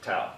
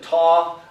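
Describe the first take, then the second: First: The vowel sounds like 'ow' in cow. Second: The vowel sounds like 'aw' in saw. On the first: This is the speaker's own habitual pronunciation. "I grew up calling it tau, so that's how I'll pronounce it" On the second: Some other people say it this way. "Some people pronounce it taw"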